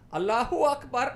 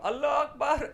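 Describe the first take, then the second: First: The first word ends with an added u vowel. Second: The first word ends without an extra vowel. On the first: "how do you say it properly? ... like that" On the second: "what I usually do is I go"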